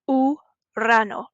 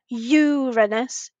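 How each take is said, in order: First: The word begins with a pure 'oo' sound. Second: The word begins with an English 'you' sound. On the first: The speaker calls it right. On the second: The speaker calls it wrong. "you don't say you like we do in English. So it's not"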